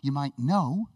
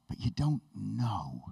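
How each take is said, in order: First: Said in the usual way. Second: Slow, low, softer "know"; pause, then a weighted, lowered "know"; weighty stress on know. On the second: Shown as a demonstration. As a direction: let "know" drop deep and drawn out. Contrasts surface and deep knowing.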